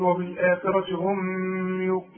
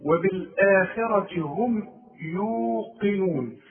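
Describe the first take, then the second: First: وبالآخرة هم said with the ميم wrongly voweled, higher; the mistake to avoid; wrong reading. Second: وبالآخرة هم يوقنون with silent ميم and a heavy قاف, slow; correct reading. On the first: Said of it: "اوعى تقول". (نطق خاطئ للميم الساكنة) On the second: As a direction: recite it slowly and correctly. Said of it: "عند الوصل وعند الوقف". (قراءة صحيحة بطيئة) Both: Shown as a demonstration.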